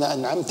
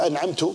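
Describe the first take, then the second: First: The word ends with an a vowel. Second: The word ends with an u vowel. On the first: The listener, addressed as male, is the giver. The speaker calls it right. "صراط الذين أنعمت أنت يا رب" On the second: The speaker is the giver. The speaker calls it wrong. "جعلت نفسك إيش، أنت المنعم"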